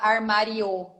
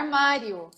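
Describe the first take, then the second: First: Every letter is pronounced carefully as spelled. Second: It is said casually, with sounds reduced. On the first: This is how it is written, not how people talk. The speaker calls it wrong. "Ninguém fala armário" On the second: This is how people actually say it. The speaker calls it right. "Então, tipo, é armário"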